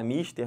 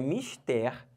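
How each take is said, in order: First: The stress is on the first syllable. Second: The stress is on the last syllable. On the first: It sounds like the English word. The speaker calls it wrong. "Dá vontade de falar mister, não dá?" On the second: It is the Portuguese word meaning important. The speaker calls it right. "então é uma palavra oxítona"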